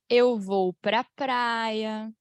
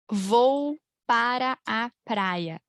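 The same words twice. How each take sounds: First: "pra praia" slowly run together; slow linked form. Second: Every syllable of "Vou para a praia" drawn out slowly; slow full form. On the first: Teacher showing the everyday linked form, slowly. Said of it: "A gente fala". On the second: Teacher showing the stiff full form, slowly. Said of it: "Alguém fala isso". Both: Shown as a demonstration.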